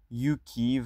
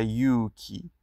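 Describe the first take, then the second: First: یوکی with a short u: yu-ki; short vowel. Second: یوکی with the u held long: yuu-ki; long vowel. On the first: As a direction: say یوکی crisply, no held vowel. (یوکی با مصوت کوتاه) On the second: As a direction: stretch the و in یوکی slowly. (یوکی با مصوت کشیده) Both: Shown as a demonstration.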